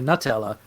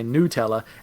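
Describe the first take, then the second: First: The first syllable sounds like 'nut'. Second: The first syllable sounds like 'new'. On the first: This is how the speaker says it. The speaker calls it right. "I say Nutella" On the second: This is how Americans say it. The speaker calls it wrong. "I've heard Americans say Nutella, and that's disgusting"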